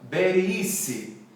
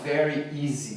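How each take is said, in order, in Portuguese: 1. É dito com um b e um s com som de espanhol. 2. É dito com os sons padrão do inglês de v e z. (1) "fala very easy" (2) "quem fala espanhol não fala very easy"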